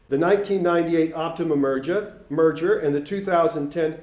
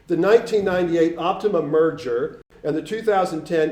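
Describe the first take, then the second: First: Boston accent. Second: Said in the usual way. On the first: Real, not acted. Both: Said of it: "I kinda got into my Boston accent there".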